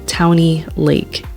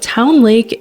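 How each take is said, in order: First: Town is said with an extra ee sound. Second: Town is said as one syllable.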